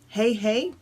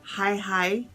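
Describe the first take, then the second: First: The vowel sounds like the word 'hay'. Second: The vowel sounds like the word 'high'. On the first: "Either Hey Hey" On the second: "or Hi Hi"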